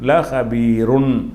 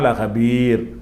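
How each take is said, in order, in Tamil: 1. இந்த வார்த்தை முழு 'run' அசையில் முடிகிறது. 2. இந்த வார்த்தை வெறும் 'r' ஒலியில் முடிகிறது. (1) "ராவுக்கு வந்து ரெண்டு உகரக்குறியீடு போட்டிருக்காங்க ருன்" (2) "நிப்பாட்றான்னா"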